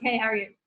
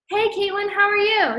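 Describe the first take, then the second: First: Said in the usual way. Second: High, chirpy, stilted hey Caitlin; mock an awkward scripted hello; stiff overly formal greeting. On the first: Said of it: "it's like, nah". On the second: Mocking how nobody greets a friend, high and stilted. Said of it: "you go up to somebody and you're like".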